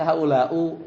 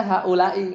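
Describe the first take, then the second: First: "haulau" ending in u instead of i; wrong ending -u. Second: "haulai" ending in a clear i; correct ending -i. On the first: Teacher showing a reading nobody uses, "haulau" ending in u. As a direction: say "haulau" with a final -u sound. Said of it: "nggak ada yang haulau". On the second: Teacher showing how all Arabs read it, "haulai" ending in i. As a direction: say "haulai" with a final -i sound. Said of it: "semuanya bacanya haulai". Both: Shown as a demonstration.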